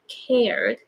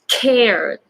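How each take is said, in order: First: The K is released with little air. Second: The K is released with a strong puff. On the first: The speaker calls it wrong. "not cared" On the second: The speaker calls it right. "more air"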